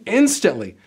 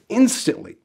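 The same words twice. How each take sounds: First: Instantly pushed higher and louder; stress on instantly. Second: Said in the usual way. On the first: Shown as a demonstration. Coach to job seekers, hitting instantly harder on the repeat. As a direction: lean hard on instantly, repeating it for emphasis. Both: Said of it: "I mean instantly".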